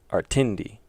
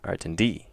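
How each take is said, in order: First: The stress is on the second syllable. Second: The stress is on the last syllable. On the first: "if it was on the second one" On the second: "If it's on the last one"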